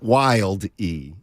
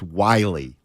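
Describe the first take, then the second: First: The name is said with a D sound. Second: The name is said without a D sound. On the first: The speaker calls it wrong. "There's no D. It's not Wild E" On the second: The speaker calls it right. "It's Wiley. Like, oh, like a wily veteran"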